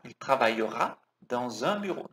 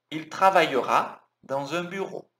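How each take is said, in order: First: "dans un" joined with a liaison z sound; linked dans un. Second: "travaillera" with a clear throat R; careful R. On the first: Teacher shows students the liaison in "dans un". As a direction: link "dans" into "un" smoothly with a z. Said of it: "Não se esquece também de juntar aqui". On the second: Teacher shows students the French R in "travaillera". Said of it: "Cuidado com esse R". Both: Shown as a demonstration.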